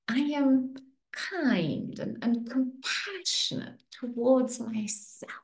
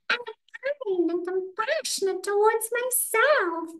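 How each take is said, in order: First: It is said in a sweet voice. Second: It is said in a Mickey Mouse voice.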